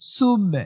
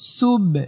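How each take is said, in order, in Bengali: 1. "b" শেষ হয় হালকা প্রতিধ্বনির আওয়াজে। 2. "b" শেষ হয় হালকা প্রতিধ্বনির আওয়াজে।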